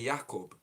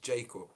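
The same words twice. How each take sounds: First: The name is said in a non-English way. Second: The name is said in the English way. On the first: "When they say Jacob" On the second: "the English way of saying Jacob is Jacob"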